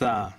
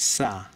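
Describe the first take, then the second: First: It starts with a lisped th sound. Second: It starts with a plain s sound. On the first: The speaker calls it right. "থ আর শকে যদি একসাথে উচ্চারণ করেন" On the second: The speaker calls it wrong. "বাঙালিরা এটা উচ্চারণ করে সা"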